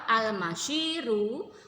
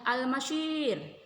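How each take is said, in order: First: The word ends with a short final vowel. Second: The word ends on a bare final consonant. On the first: "Contoh al-masyiru" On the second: "panjang dan roknya mati"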